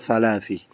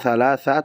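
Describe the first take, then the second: First: The word ends in an i vowel. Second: The word ends in an a vowel. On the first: "atau thalathi" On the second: "bukan thalatha"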